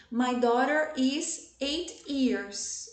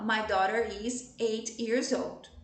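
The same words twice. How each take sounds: First: Put-on slow sentence halting on "years", without "old"; stopping at years. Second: Put-on slow model sentence carried on to "old"; through to the end. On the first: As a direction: end squarely on a drawn-out "years" as the common error. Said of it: "outro erro muito comum é dizer assim". (frase lenta que para no "years", sem "old") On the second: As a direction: keep going past "years" and finish on "old". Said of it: "eu tenho que ir até o final". (frase lenta levada até o final, até "old") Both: Shown as a demonstration.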